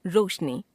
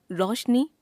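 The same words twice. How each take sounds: First: Said in the usual way. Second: रोशनी as "raushni", open au for o; wrong pronunciation. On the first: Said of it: "शुद्ध". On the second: Shown as a demonstration. Teacher showing an o-au error, रोशनी said as "raushni". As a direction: widen the o of रोशनी, rising. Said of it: "अशुद्ध".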